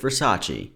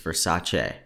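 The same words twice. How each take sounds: First: The name ends in an 'ee' sound. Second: The name ends in an 'ay' sound. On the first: The speaker calls it wrong. "I called it Versace" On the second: The speaker calls it right. "It's Versace"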